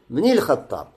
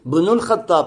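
First: The word ibn ends in an i vowel. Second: The word ibn ends in a u vowel. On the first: The speaker calls it right. "а говоришь бни Аль-Хаттаб" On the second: The speaker calls it wrong. "Ты говоришь не бну Аль-Хаттаб"

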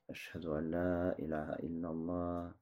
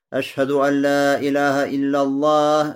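First: The phrase is said quietly. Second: The phrase is said loudly. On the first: Only the caller and those nearby hear it. "Потом произносит тихонько" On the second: Everyone is meant to hear it. "А потом громко"

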